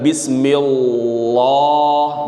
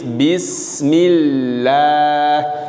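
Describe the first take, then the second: First: The L sound is heavy and thick. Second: The L sound is light and thin. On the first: The speaker calls it wrong. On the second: The speaker calls it right. "maka bacanya tipis"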